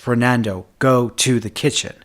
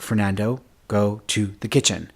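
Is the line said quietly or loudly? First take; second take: loudly; quietly. First: It is said loudly and commandingly. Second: It is said quietly and mildly.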